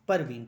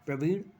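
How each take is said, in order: First: A vowel separates the opening p and r. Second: The opening p and r are said together.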